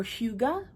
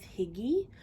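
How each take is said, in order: First: "Huga" said HYOO-guh; alternative pronunciation. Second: "Higgy" said HIG-ee; alternative pronunciation. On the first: Offering another way to say hygge, "Huga" as HYOO-guh. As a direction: say "Huga" with a long yoo, ending in uh. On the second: Unsure how to pronounce hygge, offers "Higgy" as HIG-ee. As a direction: say "Higgy" with short i, ending in ee. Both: Shown as a demonstration. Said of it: "however you wanna pronounce it".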